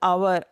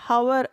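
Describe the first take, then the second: First: The word begins with a vowel sound. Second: The word begins with an h sound. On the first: The speaker calls it right. "அவர் அப்படின்னு தான் சொல்லணும்" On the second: The speaker calls it wrong. "அது ஹவர் அப்படின்னு சொல்லக்கூடாது"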